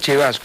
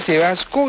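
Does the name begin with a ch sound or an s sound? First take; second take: ch sound; s sound. First: The name begins with a ch sound. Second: The name begins with an s sound. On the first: This is how the name is actually said. "se pronuncia Chevasco" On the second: This is how the name is written. "Se escribe Sebasco"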